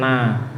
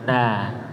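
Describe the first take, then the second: First: The whole syllable sounds through the nose. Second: Only the start sounds through the nose. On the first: The speaker calls it wrong. "tidak terus-terusan na" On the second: The speaker calls it right. "hanya awalannya saja masuk hidung"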